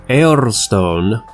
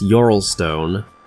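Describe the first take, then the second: First: The name starts with a plain vowel sound. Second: The name starts with a 'y' sound. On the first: This is the speaker's own pronunciation. "I'm gonna keep on calling it Eorlstone" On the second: This is how other people pronounce it. "for some reason people pronounce Yorlstone"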